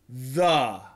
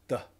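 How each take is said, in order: First: The vowel is a fuller, longer 'uh' sound. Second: The vowel is a very short schwa. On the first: "that's a short U" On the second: "that is a schwa"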